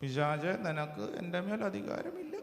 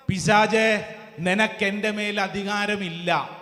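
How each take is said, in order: First: Very soft, timid mock command; mock-feeble rebuke. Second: Firm, full-voiced declaration; stern preacher's rebuke. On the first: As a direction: say it faintly, with no authority at all. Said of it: "എങ്ങനെ പറയണ്ടേ". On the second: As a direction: tell the devil firmly who is in charge. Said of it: "എങ്ങനെ പറയണം?". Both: Shown as a demonstration.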